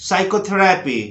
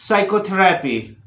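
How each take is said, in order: Both takes have the same delivery.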